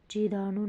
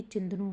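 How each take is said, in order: First: चिदानु with long "daa" and no nasal; wrong pronunciation. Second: चिंदनु with nasal "chin" and short "da"; corrected pronunciation. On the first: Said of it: "नहीं". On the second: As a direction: say चिंदनु as "chind-nu". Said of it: "होगा". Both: Shown as a demonstration.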